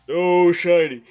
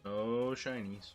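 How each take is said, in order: First: It is said in a booming announcer voice. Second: It is said in an ordinary speaking voice.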